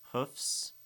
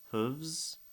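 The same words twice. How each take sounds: First: Hoofs ending in an unvoiced fs hiss; hoofs, a breathy fs ending and no voicing. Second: Hooves ending in a buzzing voiced vz. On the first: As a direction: hoofs with a sharp S sound at the end. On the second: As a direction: let hooves end in a voiced vz. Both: Shown as a demonstration. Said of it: "fs instead of vz".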